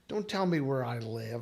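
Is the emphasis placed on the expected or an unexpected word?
expected. The emphasis falls on the expected word. The speaker calls it right. "if I was saying"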